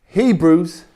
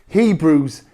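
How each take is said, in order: The two takes are said the same way.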